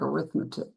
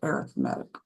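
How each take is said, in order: First: The stress is on the second syllable. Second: The stress is on the third syllable. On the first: The speaker calls it wrong. "it looks like arithmetic" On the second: The speaker calls it right. "it's actually pronounced arithmetic"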